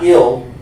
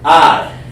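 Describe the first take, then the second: First: The vowel sounds like 'ih' in 'ill'. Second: The vowel sounds like 'eye'. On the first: The speaker calls it wrong. "not ill" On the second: The speaker calls it right. "You want to say I"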